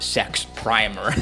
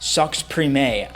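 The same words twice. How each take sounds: First: The name is pronounced the English way. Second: The name is pronounced the French way. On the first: The speaker calls it wrong. "It's not Sex Primer, like I said here" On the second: The speaker calls it right. "I think it's Sex Primer... and it's French"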